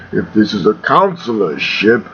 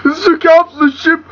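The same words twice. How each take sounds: First: Low, menacing villain challenge; deep and ominous, doubting the captive; Darth Vader. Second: Very high, whimpering protest; panicked, tearful high-pitched prisoner; choked captive. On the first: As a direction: do a deep-voiced dark lord interrogating. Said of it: "eh, Vader impression". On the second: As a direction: squeal it as if being strangled. Choked captive answers Vader. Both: Acted.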